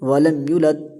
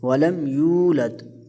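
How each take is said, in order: First: The vowel after the y is short. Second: The vowel after the y is drawn out long. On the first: The speaker calls it wrong. "ऐसे पढ़ते हैं, जो कि गलत है" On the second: The speaker calls it right. "युलत नहीं, ये यूलद है"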